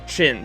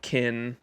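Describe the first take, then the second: First: The name begins with a ch sound. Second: The name begins with a hard k sound. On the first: The speaker calls it right. "Yeah, that's right" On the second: The speaker calls it wrong. "It's not Kin"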